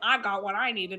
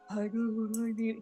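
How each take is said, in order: First: It is said in a plain voice. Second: It is said in an imitation of Lazarus.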